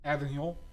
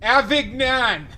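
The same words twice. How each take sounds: First: It is said with a plain English accent. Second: It is said with a French accent.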